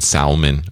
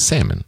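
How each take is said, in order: First: The L sound is pronounced in the word. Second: The L sound is left silent in the word. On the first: The speaker calls it wrong. "you used to mention salmon" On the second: The speaker calls it right. "The L is silent"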